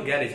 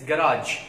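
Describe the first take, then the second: First: "garage" as GAIR-ij, stressed at the front; wrong pronunciation. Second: "garage" as guh-RAAJ, long second vowel; correct pronunciation. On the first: Teacher correcting students on local speech, wrong pronunciation. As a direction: say "garage" with a short second syllable, GAIR-ij. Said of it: "it's never garage". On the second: Teacher giving students the right form, correct pronunciation. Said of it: "it's never garage, it's garage". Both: Shown as a demonstration.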